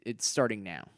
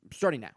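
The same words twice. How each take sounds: First: Said in the usual way. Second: Starting now said louder and higher, punched with a falling end; emphatic self-commitment; firm resolve. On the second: Real, not acted. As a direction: hit Starting now like a promise to yourself.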